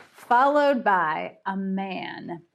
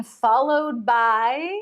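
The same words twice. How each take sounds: First: Followed by a man said slowly and settled; slow reveal. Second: Followed by stretched slow with a rising hang; drawn-out suspense. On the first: Suspense resumed after sound effect. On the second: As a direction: stretch followed by slowly, leave it hanging up. Drawn-out cliffhanger before sound effect. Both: A narrator's reading.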